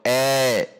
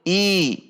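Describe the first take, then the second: First: The vowel sounds like an e. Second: The vowel sounds like a clear i. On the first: The speaker calls it wrong. "I tidak dibaca e" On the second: The speaker calls it right. "Namun i"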